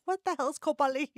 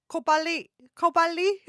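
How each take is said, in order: First: Said in the usual way. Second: Kau balik in a mock Singaporean accent, said higher and a bit louder; imitating Singaporean slang; Singaporean phrase. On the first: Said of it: "I'm like". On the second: Vlogger recalls Singaporean words in a mock Singaporean accent. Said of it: "some of the words I only remember".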